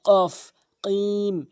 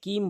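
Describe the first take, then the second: First: "কিম" with q from the tongue root; deep QAF. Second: "কিম" with plain front k; wrong light K. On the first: Teacher demonstrates the letter, "কিম" with back q. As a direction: slowly make "কফ, কিম" far back on the palate. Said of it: "জিহ্বার গোড়া উপরে তালুর সঙ্গে". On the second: Teacher shows what is forbidden, "কিম" with light k. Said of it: "কিম বলা যাবে না". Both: Shown as a demonstration.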